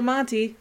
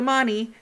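First: The T sound in the word is heard. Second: The T sound in the word is dropped. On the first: "I'm going to go to Monte" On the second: "sometimes you don't even hear the T"

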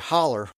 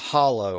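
First: The word ends with an 'er' sound. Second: The word ends with an 'oh' vowel. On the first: "people there would say holler" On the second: "for a hollow"

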